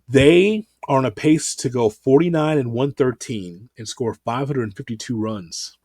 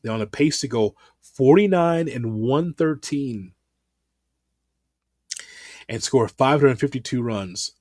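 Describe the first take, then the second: First: It is said fast. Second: It is said slowly.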